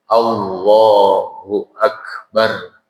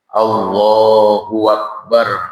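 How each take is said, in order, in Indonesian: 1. Kedua kata dipisahkan tanpa bunyi w. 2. Bunyi w menyambungkan kedua kata. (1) "Jadi harus tegak hurufnya" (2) "Berarti tercipta tambahan wawu antara ha dan hamzah"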